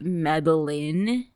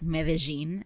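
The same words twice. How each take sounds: First: It is said with an American English pronunciation. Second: It is said with a Colombian Spanish pronunciation. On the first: "in America it's called Medellin" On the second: "it's Medellin apparently in Colombia"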